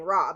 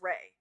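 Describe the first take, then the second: First: The name is said with an 'ah' vowel. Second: The name is said with an 'ay' vowel. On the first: This is the Americanized way of saying it. "I was raised saying Ra, but apparently that's like a Americanized way of saying it" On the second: This is how a pronunciation source says it. "it pronounce it as Ray or instead of Ra"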